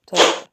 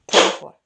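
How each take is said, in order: Both takes have the same delivery.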